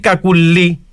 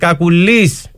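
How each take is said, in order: First: The name ends with a vowel sound. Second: The name ends with a final s sound. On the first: The speaker calls it right. "αντί Κακουλή" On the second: The speaker calls it wrong. "λέει Κακουλής, βάζει και το τελικό σίγμα"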